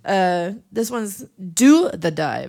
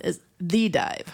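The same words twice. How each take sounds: First: Slow, "Do" stressed in "[name]". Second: Slow, "The" stressed in "The Dive". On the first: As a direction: spell out "[name]" slowly, leaning on "Do". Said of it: "if you ever look for this record". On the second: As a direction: stretch out "The Dive", leaning on "The". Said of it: "the other one is". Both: Shown as a demonstration.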